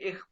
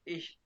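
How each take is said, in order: First: The word ends in a harsh throaty kh sound. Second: The word ends in a plain sh sound. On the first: This is how Russian speakers say it. "वो इसको इख पढ़ते हैं" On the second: "Asian इसको इश पढ़ते हैं"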